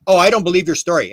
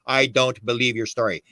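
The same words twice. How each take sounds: First: Said in the usual way. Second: "I don't believe your story" drawn out slowly; really slow. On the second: Shown as a demonstration. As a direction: say it slowly, each word set apart. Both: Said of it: "Say that really slow".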